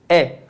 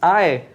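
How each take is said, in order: First: It is read as a single e vowel. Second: It is read as two separate vowels, a then e. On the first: This is how it is read in Latin. The speaker calls it right. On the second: This is how it is read in Portuguese. The speaker calls it wrong. "a gente lê no português A E"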